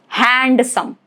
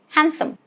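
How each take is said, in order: First: The D sound is pronounced. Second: The D sound is silent. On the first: The speaker calls it wrong. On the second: The speaker calls it right.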